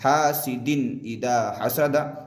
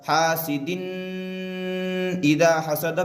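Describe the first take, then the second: First: The n sound is said clearly and quickly. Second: The n sound is held in the nose. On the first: The speaker calls it right. "तनवीन की आवाज़ को जाहिर करके बग़ैर गुन्ना के जल्द पढ़ना है" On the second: The speaker calls it wrong. "हासिदिन इदा हसदा भी नहीं पढ़ेंगे"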